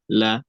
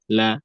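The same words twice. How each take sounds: First: The L sound is light and clear. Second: The L sound is light and clear.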